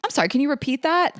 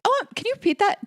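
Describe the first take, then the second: First: Sweetly raised, faux polite ask; mock innocent. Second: High, fast, fake innocent ask; playing dumb. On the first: Answering a condescending coworker, faux polite. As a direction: ask like you missed it on purpose. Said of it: "I just think". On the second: Hoping someone insults her, high fake innocent ask. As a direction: act sweetly clueless to corner them. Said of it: "so I can be like". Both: Shown as a demonstration.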